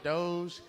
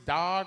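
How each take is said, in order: First: It ends in a soft j sound, unlike dog. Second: It is said exactly like the word dog.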